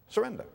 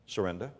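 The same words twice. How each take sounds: First: Higher echo. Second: Soft answer. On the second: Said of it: "Do you know where strength comes from". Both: Real, not acted.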